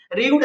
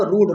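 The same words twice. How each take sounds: First: र्यूड said with a y glide, as ryood; र्यूड pronounced ryood, marked as wrong; wrong pronunciation. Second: रूड said as plain rood with no y glide; रूड pronounced rood, the correct way; correct pronunciation. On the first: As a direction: say र्यूड as ryood, the common mistake. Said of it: "कई लोग इसका pronunciation र्यूड पढ़ते हैं". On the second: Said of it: "इसका मतलब भी रूड होता है". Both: Shown as a demonstration.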